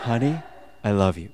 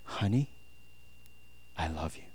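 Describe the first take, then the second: First: Soft, low endearment after a laugh; retry the lover's line, a little less hushed; second romantic attempt. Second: Very soft, low sweet nothing; hushed, low declaration of love; attempted romantic murmur. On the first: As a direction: play at tender romance. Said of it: "Let me try it again". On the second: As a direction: try murmuring it tenderly to a lover. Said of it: "I don't know if that's the most romantic".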